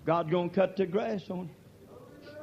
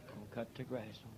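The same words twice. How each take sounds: First: Shouted warning. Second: Gonna cut the grass on nearly whispered, much softer and lower; hushed echo. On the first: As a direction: shout God's gonna cut the grass on you slowly, leaning on cut. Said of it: "echoed softly right after". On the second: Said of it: "shouted just before". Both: Real, not acted.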